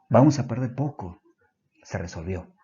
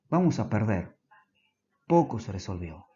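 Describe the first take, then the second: First: It is said with a pause after 'poco'. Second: It is said with a pause before 'poco'.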